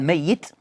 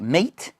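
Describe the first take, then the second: First: The middle consonant is doubled and heavy. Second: The middle consonant is short and light. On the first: Someone alive who will eventually die. "tathqil, more heavier pronunciation" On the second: Someone who has already died. "which is takhfif"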